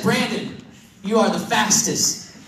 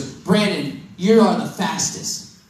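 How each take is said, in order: First: Slower, with a pause before you; slow retake. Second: Put-on slow, savoring each word of the girl's praise; slow quoted line. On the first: Retold or imitated. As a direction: say it again, slowly and deliberately. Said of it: "now let me try it again". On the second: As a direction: let it land slowly, lingering on you. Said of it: "she said this".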